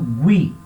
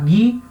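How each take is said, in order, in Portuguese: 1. O u depois do g é pronunciado. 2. O u depois do g é mudo. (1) "eu falo gui" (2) "Em vez de falar gui"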